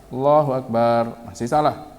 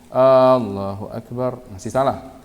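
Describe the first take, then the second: No difference in how they are said.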